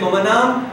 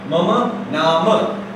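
First: The last word ends on a consonant, no final vowel. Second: The last word ends with a final vowel sound. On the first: This is the Hindi form. "If you say Mama Nam, that's Hindi" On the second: This is the Sanskrit form.

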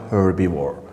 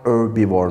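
First: The word starts with an H sound. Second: The word starts without an H sound. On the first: The speaker calls it wrong. "not herbivore" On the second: The speaker calls it right. "This sounds like herbivore, This is no H sound"

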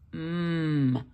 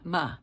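First: The consonant sound has no vowel after it. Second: The consonant sound has an added uh vowel. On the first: The speaker calls it right. "M says mm" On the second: The speaker calls it wrong. "not m"

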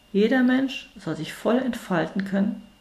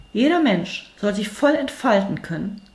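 The two takes are said the same way.

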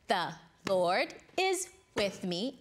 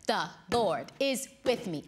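First: It is said at a normal, slower pace. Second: It is said a little faster.

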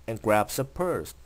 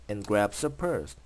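No difference in how they are said.

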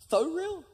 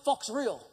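First: The first word ends in a plain vowel. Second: The first word ends with a ks sound. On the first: The speaker calls it right. "You mean Faux Real?" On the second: The speaker calls it wrong. "every time you read it as fox"

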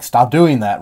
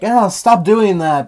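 First: It is said in a plain, calm voice. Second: It is said in a whiny, complaining voice.

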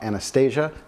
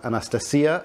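First: The name is pronounced the English way. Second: The name is pronounced the Russian way. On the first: "and not Anastasia" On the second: "That's also the Russian way of saying it"

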